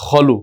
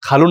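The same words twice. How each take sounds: First: খলু with a rounded "kho" first syllable; correct Arabic vowel. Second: খালু with an open "aa" after the first consonant; wrong vowel. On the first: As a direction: say খলু starting with খ, not খা. (খা নয়, খ দিয়ে খলু) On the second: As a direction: say খালু with খা, the mistaken reading. (আ-কার দিয়ে ভুল খালু) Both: Shown as a demonstration. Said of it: "খালু না কিন্তু".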